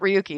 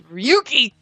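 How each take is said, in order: First: The Yuki part is said at normal loudness. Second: The Yuki part is shouted loudly. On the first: The speaker calls it wrong. "It's not Ryuki" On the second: The speaker calls it right. "you have to scream the Yuki part"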